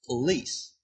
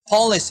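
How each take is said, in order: First: The stress is on the second syllable. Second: The stress is on the first syllable. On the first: The speaker calls it right. "리에 스트레스가 있는 거죠" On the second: The speaker calls it wrong. "틀린 겁니다"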